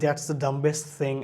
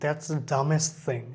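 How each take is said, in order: First: The b sound in dumbest is pronounced. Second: The b sound in dumbest is silent. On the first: The speaker calls it wrong. "আমরা সবাই বলি" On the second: The speaker calls it right. "এখানে বিটা পুরোপুরি silent থাকতেছে"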